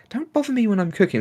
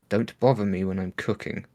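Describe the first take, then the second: First: It is said in a friendly, gentle tone. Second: It is said in a hostile, threatening tone. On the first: A polite request to be left alone. "She didn't say that in a nice way. Like" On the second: A warning to stay away. "That was a threat"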